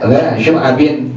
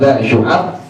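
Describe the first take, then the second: First: The last word ends with an added 'in' sound. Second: The last word ends abruptly on the 'b' sound. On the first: This follows the ordinary grammar rule. The speaker calls it wrong. "harus dibacanya dha syu'abin, ba'nya harus kasratain" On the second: This follows the poem's meter. The speaker calls it right. "dibacanya dengan sukun"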